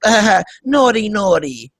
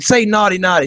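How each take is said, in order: First: Giggly mock Eastern European accent; Melania Trump. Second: Said in the usual way. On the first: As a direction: tease coyly in a put-on Slavic accent. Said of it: "That's how she talks". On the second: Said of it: "Trump tells her that".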